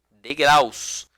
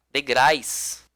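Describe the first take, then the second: First: "Degraus" ending in -aus; correct plural degraus. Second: "degrais" ending in -ais instead of -aus; wrong plural degrais. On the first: Teacher repeats the right form for class, clear -aus in Degraus. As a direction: keep the u glide in "Degraus". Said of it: "e nem degrais". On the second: Teacher warns class what not to say, wrong plural degrais. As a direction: say "degrais" with an i glide. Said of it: "Não vai falar". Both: Shown as a demonstration.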